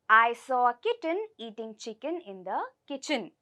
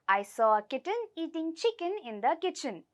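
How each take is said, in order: First: The sentence is said at a slower pace. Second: The sentence is said at a faster pace.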